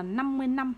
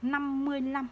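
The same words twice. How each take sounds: First: Last word "năm" with initial n instead of l; NĂM for LĂM. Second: Final word "lăm" starts with l, not n; LĂM with initial l. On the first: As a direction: demonstrate the misreading, ending on n in "năm". (đọc "năm" bằng âm n thay vì "lăm") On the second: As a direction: model the correct reading, a clear l in "lăm". (đọc rõ "lăm" bằng âm l, không phải "năm") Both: Shown as a demonstration. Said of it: "Ai đọc là năm mươi năm là sai".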